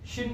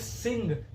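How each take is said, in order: First: It begins with 'sh' and ends in 'n'. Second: It begins with 's' and ends in 'ng'.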